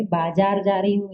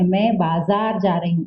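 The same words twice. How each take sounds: First: "बाजार" said with a hard j, as baajaar; "बाजार" mispronounced with j; wrong pronunciation without nukta. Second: "बाजार" said with a clear z, as baazaar; "बाजार" with nukta z sound; correct nukta pronunciation. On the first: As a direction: deliberately say "बाजार" with j instead of z. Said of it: "ऐसा नहीं". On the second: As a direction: give "बाजार" the z of zoo, not j. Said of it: "ये सही होता है". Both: Shown as a demonstration.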